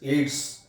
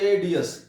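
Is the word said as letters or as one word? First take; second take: one word; letters. First: It is said as a single word. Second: Each letter is said separately. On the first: The speaker calls it right. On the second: The speaker calls it wrong.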